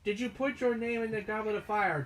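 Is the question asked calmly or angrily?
calmly. The question is asked calmly.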